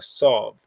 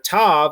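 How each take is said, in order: First: It is said in Ashkenazic pronunciation. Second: It is said in Modern Hebrew pronunciation.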